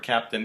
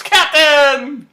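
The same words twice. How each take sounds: First: Said in the usual way. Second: Very high, full-volume shout; Eden. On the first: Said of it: "he's saying the word captain". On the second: Retold or imitated. Eden cuts in as the promotion is announced, loud excited shout. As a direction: shout it out, pitch soaring. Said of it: "Eden shouts".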